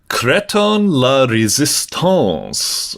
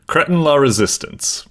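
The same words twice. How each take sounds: First: It is said with a heavy, exaggerated French accent. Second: It is said with a milder, toned-down French accent. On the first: The speaker calls it wrong. "I'm going a little bit too ham with the accent there" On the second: The speaker calls it right. "I'll say it like that"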